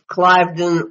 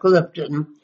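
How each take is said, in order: First: The name is said in a plain accent. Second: The name is said in a posh accent.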